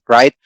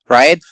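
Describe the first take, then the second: The two takes are said the same way.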